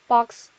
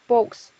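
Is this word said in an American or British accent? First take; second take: American; British. First: It is said with an American accent. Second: It is said with a British accent. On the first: "미국 영어에서의" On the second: "영국 영어에서는"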